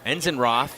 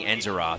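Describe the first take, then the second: First: An 'n' sound comes before 'roth'. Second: No 'n' sound comes before 'roth'. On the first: The speaker calls it right. "Enzenroth should be the correct pronunciation" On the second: The speaker calls it wrong. "I believe I've been saying Enzeroth"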